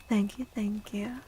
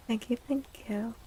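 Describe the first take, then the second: No difference in how they are said.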